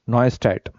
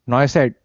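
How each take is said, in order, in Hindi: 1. दूसरा अक्षर 'stat' जैसा सुनाई देता है। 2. दूसरा अक्षर 'set' जैसा सुनाई देता है।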